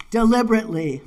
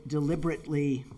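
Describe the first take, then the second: First: Deliberately repeated louder, with weight; emphatic deliberately. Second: Said in the usual way. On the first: Shown as a demonstration. Poet underlines Thoreau's key word for the audience, deliberately emphasized. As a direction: lean hard on deliberately.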